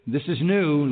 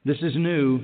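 No difference in how they are said.

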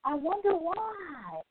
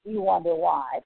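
First: Langsam, höher, leiser, gespielt nachdenklich; mock wonder. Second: Said in the usual way. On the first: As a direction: fake puzzlement, drawn out and soft. Sarcastic mock wonder, then retort.

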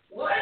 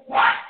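First: Incredulous. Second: Loud, sharp angry What?; angry shout. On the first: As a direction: say What? in plain disbelief. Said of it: "just an incredulous". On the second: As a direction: bark What? at the sleeping disciples. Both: Shown as a demonstration.

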